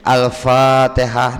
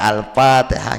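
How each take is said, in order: First: The fa sound is said as an f. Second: The fa sound is said as a p. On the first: The letter is articulated from its proper place. The speaker calls it right. "Nah itu kita bujuri lagi" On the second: This is the local habit of the Banjar tongue. The speaker calls it wrong. "Kalau kebiasaan Banjar nih, ya lo P Al-Fatihah. Ya Al-Fatihah gitu"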